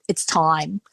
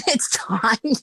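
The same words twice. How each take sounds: First: Said in the usual way. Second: Laughing repeat. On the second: Real, not acted. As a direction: laugh it off as you repeat "It's time".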